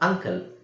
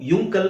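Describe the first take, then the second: First: The word begins with an 'uh' sound. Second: The word begins with a 'yu' sound. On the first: The speaker calls it right. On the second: The speaker calls it wrong.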